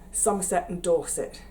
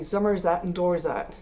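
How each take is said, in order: First: It is said in a standard English accent. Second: It is said in a West Country accent.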